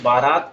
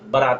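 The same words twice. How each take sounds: First: The first vowel is long. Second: The first vowel is short. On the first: The speaker calls it wrong. "के बजाय" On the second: The speaker calls it right. "इस्तेमाल करेंगे"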